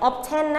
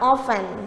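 First: The t sound is pronounced. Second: The t sound is silent. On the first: The speaker calls it wrong. "ควรไม่ได้ออกเสียง" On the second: The speaker calls it right. "ควรออกเสียงว่า"

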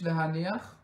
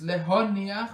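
First: The vowel after the h sounds like a. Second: The vowel after the h sounds like o. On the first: The speaker calls it wrong. "und nicht l'haniach" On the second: The speaker calls it right. "B'yem al haniach b'komets v'loi b'fatach. Es ist l'honiach"

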